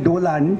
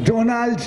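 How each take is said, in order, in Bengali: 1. নামে n-এর আগে l আছে, উল্টো। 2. নামে l-এর আগে n আছে, যেমন সাধারণত থাকে। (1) "বলতেন ডোলান্ড" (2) "উনি অবশ্য ডোনাল্ড ট্রাম্প বলতেন না"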